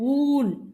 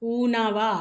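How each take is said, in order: First: The word ends on a bare consonant. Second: The word ends with an added vowel sound. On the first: The speaker calls it right. "ஊன். இன்னு சொல்லணும்" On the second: The speaker calls it wrong. "ஊனாவா? இல்ல"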